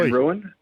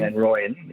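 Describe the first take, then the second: First: The surname sounds like the word ruin. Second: The surname sounds like roy-en, ending in -yen. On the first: The speaker calls it wrong. "I've been saying Van Ruin" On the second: The speaker calls it right. "Van Rooyen is the one"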